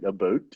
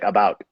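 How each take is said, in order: First: The vowel sounds close to 'aboot'. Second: The vowel sounds like ordinary 'about'. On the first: This is the stereotyped regional pronunciation. "the pronunciation of about is like about or something" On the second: This lacks the expected stereotype. "and they'd be disappointed"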